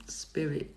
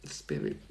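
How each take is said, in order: Both takes have the same delivery.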